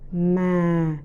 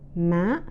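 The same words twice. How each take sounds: First: The pitch is low and falls. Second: The pitch is high and rises. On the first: "the second" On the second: "and the third tones"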